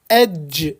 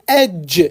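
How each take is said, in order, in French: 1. La consonne commence par un son d. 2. La consonne commence par un son d.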